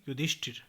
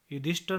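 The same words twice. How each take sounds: First: Said in the usual way. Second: युधिष्ठिर ending in -ṭhar; mispronunciation. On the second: Shown as a demonstration. (युधिष्ठिर को युधिष्ठर बोलें) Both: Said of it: "नहीं".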